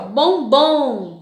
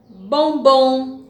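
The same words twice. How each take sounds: First: "bombom" drawn out slowly, its strong syllable held; stressed syllable demo. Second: Said in the usual way. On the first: Shown as a demonstration. Teacher shows pupils how to find the strong syllable, "bombom" said slow and stretched. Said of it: "você vai pronunciar".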